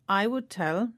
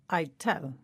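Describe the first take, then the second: First: The word would is said in full. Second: Would is reduced to a short D sound. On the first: "the phrase I would tell" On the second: "becomes I'd tell"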